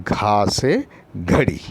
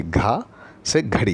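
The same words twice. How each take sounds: First: घा से घड़ी slow, घा aspirated clearly; teacher models घा से घड़ी slowly for children; slow model word. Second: Said in the usual way. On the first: Shown as a demonstration. Teacher shows kids the sound, slow and clear. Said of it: "ये देखिए घा से घड़ी". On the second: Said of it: "ये देखिए".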